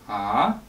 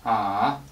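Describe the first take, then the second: First: The pitch rises upward like a question. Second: The pitch dips low, then comes back up. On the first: "like asking a question" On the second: "drag your voice down and release it"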